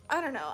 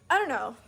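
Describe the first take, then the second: First: Said in the usual way. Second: Exasperated outburst. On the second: Real, not acted. Exasperated after pushy driver story.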